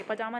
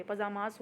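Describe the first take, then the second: First: पजामा ending on an open aa; wrong singular form. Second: पजामास closed with a z-like s; correct plural form. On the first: Teacher rejects the singular for students, पजामा ending on the vowel. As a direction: leave पजामा without a final s or z. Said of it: "पजामा नहीं बोलते". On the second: Teacher gives students the plural, पजामास with final z sound. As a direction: add the buzzing plural ending to पजामास. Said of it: "पजामास होता है वो". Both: Shown as a demonstration.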